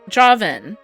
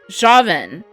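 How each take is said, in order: First: The name starts with a J sound. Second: The name starts with a J sound.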